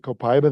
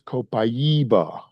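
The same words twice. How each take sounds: First: It is said with an English-style pronunciation. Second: It is said with a Brazilian pronunciation. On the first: The speaker calls it wrong. "you better not pronounce it Copaiba there" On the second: The speaker calls it right. "It is Copaiba. They're very adamant about that"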